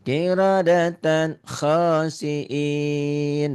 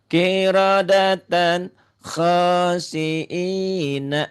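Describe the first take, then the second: First: The last word ends with an n sound. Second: The last word ends with a vowel. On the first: The reading stops at this word. "Kalau dihentikan betul" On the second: The reading carries on without stopping. "baca apa adanya"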